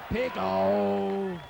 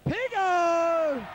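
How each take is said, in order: First: Lower, loud call echoing the first; cheering shout. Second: High, loud call across the ground; cheering shout. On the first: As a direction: call his nickname again, lower. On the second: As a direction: shout his nickname like a fan. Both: Real, not acted. Calling out to a player.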